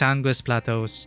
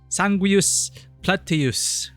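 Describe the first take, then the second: First: Plateaus ends with an 'oh' sound. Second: Plateaus ends with an 'us' sound. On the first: The speaker calls it right. "No, it's Sanguis Plateaus" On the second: The speaker calls it wrong. "I pronounced it as Plateus before"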